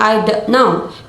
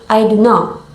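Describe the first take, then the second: First: The T in don't is pronounced. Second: The T in don't is dropped. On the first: "instead of saying I don't know" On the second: "The T in don't is dropped"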